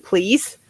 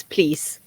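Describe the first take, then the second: First: "Please" wie im Englischen, mit leicht steigendem Ton; English please. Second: "please" auf Norwegisch, leise und fallend gesungen; Norwegian please. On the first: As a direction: say "Please" the English way, soft with a slight rise. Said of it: "You hear the difference?". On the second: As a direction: say "please" the Norwegian way, soft, sing-song, falling. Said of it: "Your little fairy sing-song voice?". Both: Shown as a demonstration.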